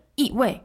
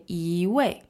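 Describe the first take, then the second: First: Both 一 and 位 falling sharply; jilted double fourth tone. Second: 一 rising smoothly, then 位 falling; softened tone flow. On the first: Teacher shows why 一位 sounds odd, both syllables falling. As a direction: say 一位 as two falling fourth tones. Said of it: "it sounds kind of odd". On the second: Teacher models natural 一位, 一 rising into falling 位. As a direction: let 一 glide up into 位. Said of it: "we kind of soften the flow". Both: Shown as a demonstration.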